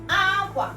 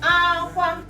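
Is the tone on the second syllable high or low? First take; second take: low; high. First: The first syllable is high, the second low. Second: Both syllables are said on a high tone. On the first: It means clothes. "the first one is high, aqua. Then the last one here is low" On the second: It means cry. "high, high, meaning cry"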